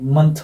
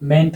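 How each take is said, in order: First: The suffix has a reduced, weak vowel. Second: The suffix has a full 'e' vowel. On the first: The speaker calls it right. "मंथ होता है" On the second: The speaker calls it wrong. "मेंट नहीं होता है"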